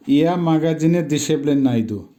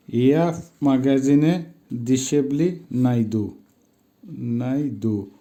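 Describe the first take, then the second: First: Said in the usual way. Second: Slowly, each word set apart by pauses; measured word-by-word pronunciation demo; slow teaching repetition. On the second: Shown as a demonstration. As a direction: model yeah, মাগাজিনে, দিশেবলি, নাইদু one at a time. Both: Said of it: "উচ্চারণ হবে".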